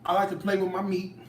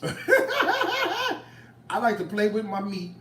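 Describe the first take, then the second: First: Said in the usual way. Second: Slow, high, laughing through the words; laughing, drawn out. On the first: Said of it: "don't take this the wrong way". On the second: Real, not acted. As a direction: cook repeating her joke to viewers, slow and laughing. Repeats line laughing, drawn out.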